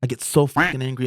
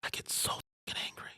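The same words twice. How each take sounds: First: Said in the usual way. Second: Breathless whispered confession; real anger held down to a whisper. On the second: Real, not acted. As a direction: whisper it through clenched anger.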